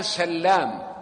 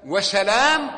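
First: سلام said sallām, slow, with a held double l; سلام as "sal-LAAM"; doubled lam. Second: وسلام said wa-salām, single l; وسلام with an undoubled l; light single lam. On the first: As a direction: lean on the ll in سلام. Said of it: "بالتشديد". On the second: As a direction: lengthen only the last a of وسلام, pitch rising. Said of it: "سلام بالتخفيف". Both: Shown as a demonstration.

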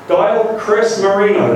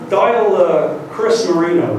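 First: Slowly, each word spelled out for the machine; over-enunciate for the voice dialer; slow, careful command. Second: Said in the usual way. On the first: Retold or imitated. Retrying the car's voice dialer, slow deliberate enunciation. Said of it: "So I press stop". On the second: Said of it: "So I'll say".

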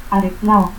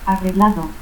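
First: Arreglao as "arreclao". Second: Said in the usual way. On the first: Shown as a demonstration. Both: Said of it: "confusión de la G y que".

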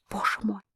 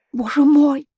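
First: Боже мой breathed out much softer; a soft, broken Боже мой; despairing murmur. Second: Боже мой cried out high and loud; a high, loud, broken Боже мой; despairing cry. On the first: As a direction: sink into a hushed Боже мой. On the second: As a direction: fling out a desperate Боже мой. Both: A narrator's reading. Despairing exclamation.

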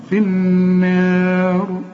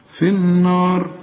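First: في النار slow, light nun, heavy final raa; correct recitation. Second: في النار with a heavy nun; the mistaken, heavy النار; wrong recitation. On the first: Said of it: "لكن النون والمد مرققين". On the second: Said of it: "ها، خطأ". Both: Shown as a demonstration.

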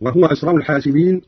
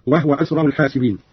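First: Said in the usual way. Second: وهو said "wahwa"; no vowel after the h in وهو; silent vowel on the haa. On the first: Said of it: "قرأ قالون بإسكان الهاء". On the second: Shown as a demonstration. Teacher demonstrating Qalun's reading, وهو as "wahwa". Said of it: "بإسكان الهاء هكذا".

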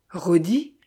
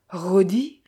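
First: Stunned rising question; horrified disbelief. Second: Voiceless whispered question; a shocked whisper, rising; breathless whisper. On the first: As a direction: ask the name back, aghast. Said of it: "répéta-t-elle". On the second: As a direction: breathe the name, barely a sound. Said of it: "quasi dans un souffle". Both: A narrator's reading.

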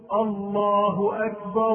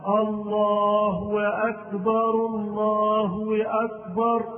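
First: Raised chant, "الله" ending in a short hu straight into "أكبر"; correct short damma. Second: Loud chant, "الله" run into "أكبر" with a w glide, Allaahu-wakbar; inserted waw. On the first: Teacher modelling the right way, short hu on "الله" before "أكبر". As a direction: sing it with no w between "الله" and "أكبر". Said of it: "إنما هي ضمة". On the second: Teacher imitating the mistake, chanting a waw between "الله" and "أكبر". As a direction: sing it high, adding a w before "أكبر". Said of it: "حتى يزيد واوا بين لفظ الجلالة ولفظ". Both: Shown as a demonstration.

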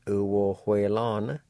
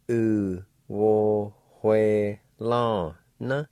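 First: Said in the usual way. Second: U wo hue la na stretched out very slowly; slow demo. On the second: Shown as a demonstration. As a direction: drag every syllable of U wo hue la na. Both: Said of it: "like this".

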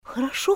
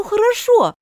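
First: Soft quick okay; hushed placating okay; hasty appeasing. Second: Higher louder second okay; quick eager hasty hurry-along okay; hasty appeasing. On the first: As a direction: hurry to calm her. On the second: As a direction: push it eagerly to move on. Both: Acted. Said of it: "торопясь перевести разговор".

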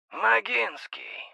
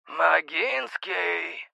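First: Higher, slow metallic voice, as through a pipe. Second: Very slow, drawn-out metallic insistence; insistent metallic voice. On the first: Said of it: "Голос изменился до неузнаваемости. Металлический". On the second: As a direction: call the name again, pressing harder. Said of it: "произнесли настойчивее". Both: A narrator's reading.

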